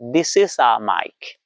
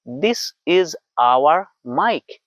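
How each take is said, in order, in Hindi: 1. 'Our' को एक ही 'ah' में छोटा कर दिया जाता है। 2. 'Our' को पूरा 'awar' बोला जाता है। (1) "अमेरिकन स्टाइल में" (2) "इंडियन स्टाइल लोकल"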